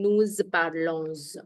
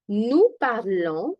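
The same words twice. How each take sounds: First: The final s of parlons is pronounced. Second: The final s of parlons is silent. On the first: The speaker calls it wrong. "I'm not saying nous parlons. No" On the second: The speaker calls it right. "S towards the end is not pronounced"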